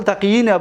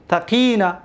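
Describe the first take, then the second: First: تقیین said with a doubled ya; original double ya. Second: Said in the usual way. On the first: Shown as a demonstration. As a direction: give تقیین both of its ya sounds. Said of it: "دو تا یا بود". (تقیین، اصل با دو یا) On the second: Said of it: "اصل تقیین بود".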